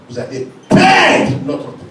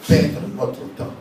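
First: Much higher, louder, slow warning; louder repeat. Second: Said in the usual way. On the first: Acted. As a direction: drive it home with a raised voice.

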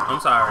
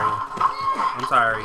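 First: Said in the usual way. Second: Slow, stretched I'm sorry; drawn-out sorry. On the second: Real, not acted. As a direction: drag the sorry out. Apologizing while game chaos.

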